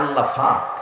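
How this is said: The second word begins with an 'f' sound. "কয় আল্লাহ ফাক"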